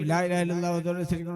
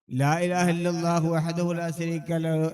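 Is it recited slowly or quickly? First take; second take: quickly; slowly. First: It is recited quickly and hurriedly. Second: It is recited at a measured pace.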